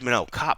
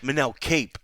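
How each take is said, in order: First: The surname has the vowel of 'top'. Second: The surname has the vowel of 'tape'. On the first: The speaker calls it right. "I made sure to say cop back to him" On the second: The speaker calls it wrong. "as Royval would not stop calling him"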